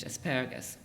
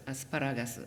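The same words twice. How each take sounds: First: "asparagus" the English way, as uh-SPARR-uh-gus; English accentuation. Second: "asparagus" as Japanese a-su-pa-RA-ga-su, falling after RA; Japanese accentuation. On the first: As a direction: stress the second syllable of "asparagus", reducing the other vowels. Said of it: "accent in English". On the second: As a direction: give "asparagus" pure Japanese vowels and a pitch accent on RA. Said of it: "Notice that it's different from the". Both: Shown as a demonstration.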